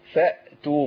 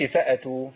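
First: The hamza is held without a following vowel. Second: The hamza is followed by a vowel. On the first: The speaker calls it right. "الهمزة عندي ساكنة" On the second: The speaker calls it wrong. "ما أقولش فأتوا، فأتوا يبقى أنا حركت الهمزة"

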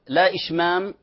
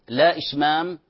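Both takes have the same delivery.

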